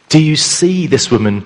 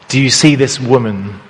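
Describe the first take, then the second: First: The stress is on the word see. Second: The stress is on the word woman.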